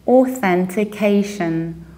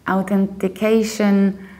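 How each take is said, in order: First: The word begins with an O sound. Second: The word begins without an O sound. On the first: The speaker calls it right. "with O at the very beginning" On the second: The speaker calls it wrong. "It's not authentication"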